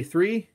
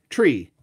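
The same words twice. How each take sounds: First: Said in the usual way. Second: "Tree." said with a plain t, no th sound; mock Irish "Tree." for three. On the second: Shown as a demonstration. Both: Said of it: "how does an Irishman say three?".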